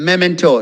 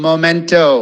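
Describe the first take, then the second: First: The first syllable sounds like 'meh'. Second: The first syllable sounds like 'moh'. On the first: The speaker calls it right. "Next is memento" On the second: The speaker calls it wrong. "not momento"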